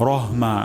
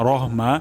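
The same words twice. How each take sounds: The two takes are said the same way.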